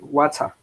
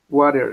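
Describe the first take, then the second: First: The t in the middle is a clear t. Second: The t in the middle sounds like an r. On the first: "British says uh, water" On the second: "American says water"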